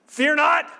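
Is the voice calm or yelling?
yelling. It is said loudly, like yelling. It is a scolding command. The speaker calls it wrong. "kind of yelling at you"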